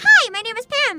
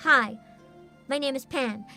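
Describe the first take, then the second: First: It is said with lively enthusiasm. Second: It is said flatly, without enthusiasm.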